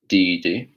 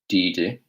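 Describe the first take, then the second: The two takes are said the same way.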